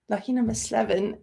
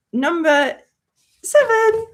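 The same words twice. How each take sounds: First: Said in the usual way. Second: High, loud announcer reveal of seven; dramatic reveal. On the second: Shown as a demonstration. Revealing the next movie to chat, announcer style. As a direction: build it up then pop the number.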